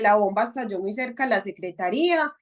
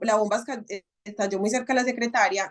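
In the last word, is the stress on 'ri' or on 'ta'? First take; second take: ri; ta. First: The last word is stressed on 'ri'. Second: The last word is stressed on 'ta'. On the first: The bomb went off near a government department. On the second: The bomb went off near an office secretary.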